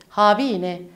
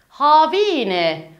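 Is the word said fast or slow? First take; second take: fast; slow. First: It is said quickly, as in normal speech. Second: It is said slowly, syllable by syllable. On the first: "hızlı bir şekilde Kürtçe cümlelerde kullanacağımız şekilde söyleyelim" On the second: "Bu kelimeleri yavaş bir şekilde heceleyerek sizlere okudum"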